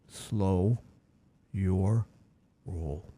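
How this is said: It is said in a put-on, distinguished voice.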